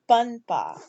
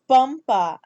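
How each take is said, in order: First: The nasal before p is an n sound. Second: The nasal before p is an m sound. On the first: The speaker calls it wrong. "it's not panpa" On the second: The speaker calls it right. "this dot represents the ma. It's pampa"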